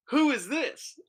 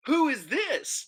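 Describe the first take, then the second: First: High-pitched mock interrogation; boyfriend's questioning. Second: High, slow, drawn-out imitation; mock echoed question. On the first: Boyfriend walks in and questions the stranger, high mock questioning. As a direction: imitate a boyfriend demanding an introduction, pitched high. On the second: Looking at my wife after boyfriend's question, high mock echo. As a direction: echo the question pointedly, pitched up and stretched.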